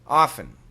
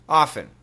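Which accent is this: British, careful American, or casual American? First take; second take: casual American; casual American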